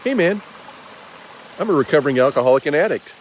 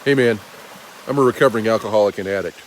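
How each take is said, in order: First: The tone sounds friendly and open. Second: The tone sounds stern and hard. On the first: The request comes across as a kind appeal. The speaker calls it right. "it sounds totally different, and it's just by raising my eyebrows" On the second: The request comes across as a reprimand. The speaker calls it wrong. "It seems a little stern. My tone"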